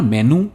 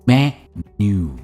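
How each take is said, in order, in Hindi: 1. अंतिम स्वर छोटा है, खिंचा हुआ नहीं। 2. अंतिम oo स्वर लंबा और खिंचा हुआ है। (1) "इट्स नॉट मेनू" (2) "स्ट्रेस है मैं पर और एंड में आता है एक स्ट्रेच साउंड"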